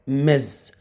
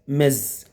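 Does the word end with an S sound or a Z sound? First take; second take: Z sound; Z sound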